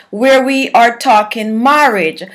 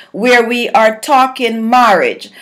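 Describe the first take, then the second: The two takes are said the same way.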